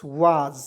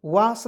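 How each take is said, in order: First: वाज ending in a z sound; teacher gives वाज with a buzzing z at the end; correct reading. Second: वास ending in a hissed s; teacher voices the wrong वास with a plain s; wrong reading. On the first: Teacher explaining to students that वाज ends in z. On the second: Teacher warning students not to end वास with an s. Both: Shown as a demonstration. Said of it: "वास नहीं पढ़ेंगे".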